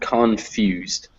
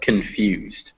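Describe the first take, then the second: First: The stress is not on the second syllable. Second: The stress is on the second syllable. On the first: The speaker calls it wrong. "not confused" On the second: The speaker calls it right. "the emphasis is on few"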